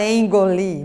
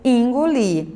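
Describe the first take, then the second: First: The first vowel is said as an E sound. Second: The first vowel is said as an I sound. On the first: "você não fala engolir" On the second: "em muitas regiões se pronuncia engolir"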